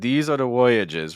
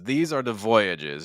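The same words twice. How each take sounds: First: The V sound at the start is weak. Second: The V sound at the start is strong. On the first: The speaker calls it wrong. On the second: The speaker calls it right.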